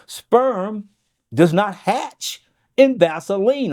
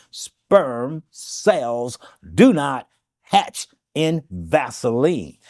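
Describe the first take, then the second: First: Said in the usual way. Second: Very slow, each word drawn out; deliberate slow repeat for emphasis; said slowly. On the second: Shown as a demonstration. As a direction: spell it out slowly so it sinks in. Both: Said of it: "I'll say this slowly".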